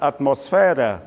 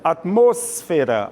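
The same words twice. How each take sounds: First: The stress falls on the syllable 'fe'. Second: The stress falls on the syllable 'mos'. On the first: This is the Portuguese pronunciation. "Em português, a tônica já é fé" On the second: This is the Spanish pronunciation. "a tônica é mos"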